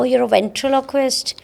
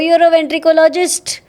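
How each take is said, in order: First: The middle is said like 'trilo', ending '-quist'. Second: The middle is said like 'tricolo', ending '-ologist'. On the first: The speaker calls it right. "pronounces it even better than I can" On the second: The speaker calls it wrong. "some kind of people who kind of know how it pronounce"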